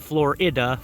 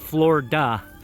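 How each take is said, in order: First: It is said with three syllables, Flo-ri-da. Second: It is said with two syllables, Flor-da. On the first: The speaker calls it wrong. "Not Florida" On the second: The speaker calls it right. "F L O R D A"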